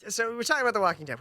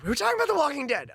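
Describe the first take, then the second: First: Said in the usual way. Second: Fast, higher announcer-style restart; mock host restart. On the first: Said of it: "repeats line faster and higher". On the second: Shown as a demonstration. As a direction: reset the show with fake pep. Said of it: "repeated with a mock restart".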